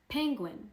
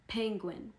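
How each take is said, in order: First: Penguin pitched high, falling at the end; modelling the word. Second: Said in the usual way. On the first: Shown as a demonstration. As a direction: sing out penguin for the class.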